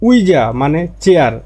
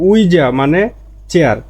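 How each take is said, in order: No difference in how they are said.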